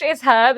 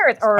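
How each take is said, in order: First: The word is said the British way. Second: The word is said the American way. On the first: "But in English, it's herbs" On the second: "In America, it's herbs"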